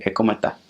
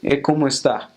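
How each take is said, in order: First: "cómo está" clipped fast, S dropped, costeño style; coastal accent. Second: "cómo está" sung high and lilting, paisa style; Medellin accent. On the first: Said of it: "the coast say ... really fast". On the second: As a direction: Medellin Spanish, melodic greeting. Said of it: "in, like, Medellin, they'll say". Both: Shown as a demonstration.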